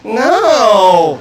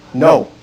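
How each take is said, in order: First: It is said in a whiny way. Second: It is said flatly, without force behind it.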